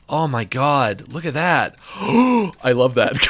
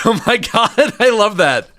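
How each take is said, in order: First: Slow, hushed after a gasp; slow awestruck I love that; awed gasp. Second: High, loud laughing delight; thrilled and laughing. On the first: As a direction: breathe it out in awe. Gasps at the spider's gaze. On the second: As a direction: squeal it with real glee. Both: Real, not acted.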